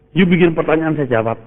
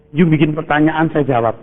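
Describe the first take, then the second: No difference in how they are said.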